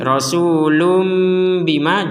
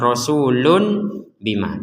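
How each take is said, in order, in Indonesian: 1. Akhirannya adalah bunyi m sengau sebelum bima. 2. Akhirannya adalah bunyi n yang jelas sebelum bima. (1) "Sama itu artinya dibaca lum, bukan lun" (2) "jangan sampai kita membacanya rasulun bima, jangan sampai jelas lun bima"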